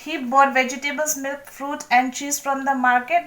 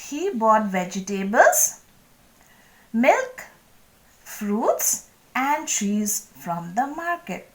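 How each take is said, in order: First: The items run together without pauses. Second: Small pauses separate each item.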